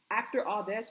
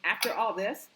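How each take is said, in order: First: Said in the usual way. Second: Getting hyped. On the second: Real, not acted. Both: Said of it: "excuse me, I'm getting so hyped".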